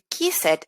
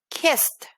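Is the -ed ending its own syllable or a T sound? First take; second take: own syllable; T sound. First: The ending is pronounced as a separate syllable. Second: The ending is a short T sound. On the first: The speaker calls it wrong. "En lugar de decir" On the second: The speaker calls it right. "voy a decir"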